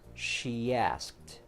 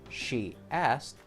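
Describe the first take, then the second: First: A y glide links the two words smoothly. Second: The words are said without a y glide between. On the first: "insert the y sound in between to make it sound smoother" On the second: "instead of saying she asked"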